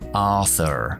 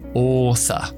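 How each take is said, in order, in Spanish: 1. El sonido final de la R sí se pronuncia. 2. El sonido final de la R no se pronuncia. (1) "Estadounidense sí lo pronuncian" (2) "Esa R al final no lo pronuncio"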